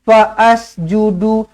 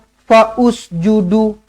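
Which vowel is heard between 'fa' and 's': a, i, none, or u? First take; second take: a; u. First: An extra 'a' vowel is sounded before the s. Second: An extra 'u' vowel is sounded before the s. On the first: "Jangan dibaris-bariskan" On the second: "Tak nak"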